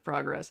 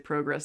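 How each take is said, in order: First: It is said with an American-style vowel. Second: It is said with a Canadian-style vowel. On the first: It is the speaker's usual way. "instead of progress" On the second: It matches how the character says it. "If we're talking about Haas, I have to say progress"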